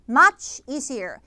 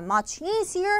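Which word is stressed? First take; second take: much; easier. First: The stress falls on the word much. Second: The stress falls on the word easier. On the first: The speaker calls it right. "반대로 much easier" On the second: The speaker calls it wrong. "much easier가 아니라"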